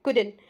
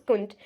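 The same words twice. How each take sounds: First: "couldn't" as "kud-en", no T; two-syllable couldn't. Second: "couldn't" squeezed to "kunt"; one-syllable couldn't. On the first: Teacher showing their own way, "couldn't" as "kud-en". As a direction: keep the D and drop the T in "couldn't". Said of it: "but I speak it couldn't". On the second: Teacher offering an alternative, "couldn't" as "kunt". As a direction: drop the D from "couldn't", keep N and T. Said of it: "Also, you can pronounce couldn't". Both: Shown as a demonstration.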